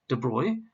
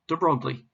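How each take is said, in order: First: The name is pronounced the French way. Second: The name is pronounced an English way. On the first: The speaker calls it right. "the pronunciation of his name is de Broglie" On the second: The speaker calls it wrong. "not de Broglie"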